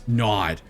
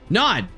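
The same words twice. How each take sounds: First: It is said in a serious tone. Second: It is said in a light, unserious tone.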